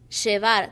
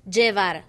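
First: The 'll' is pronounced like 'sh'. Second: The 'll' is pronounced like a 'j' sound. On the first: This is the Argentine way of saying it. "I said llevar" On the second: This is the Puerto Rican way of saying it. "Puerto Ricans said llevar, not sh. But G"

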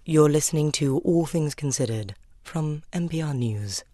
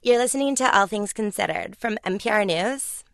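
First: It is said in a posh BBC-style accent. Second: It is said in a squeaky toy voice.

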